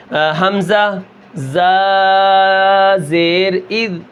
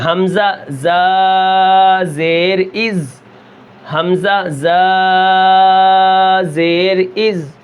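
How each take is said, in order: First: Slow حمزہ زا زیر اذ ending wrongly with a د sound on اذ; drawn-out mistaken demo ending on د; wrong dal sound. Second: Slow حمزہ زا زیر اذ with a hissing, whistled ز at the end. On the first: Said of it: "اب میں نے دال کی آواز نکالی ہے". (غلط مثال، آخر میں دال کی آواز) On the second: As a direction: stretch it and keep the ز hiss. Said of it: "اس کے اندر سیٹی ہے". (سیٹی کے ساتھ زا، آہستہ تلاوت) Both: Shown as a demonstration.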